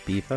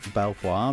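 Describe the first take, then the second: First: The name is said to sound like 'Beaver'. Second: The name is said as it is spelled. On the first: The speaker calls it right. "but it's Beaver" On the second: The speaker calls it wrong. "I always call this Belvoir"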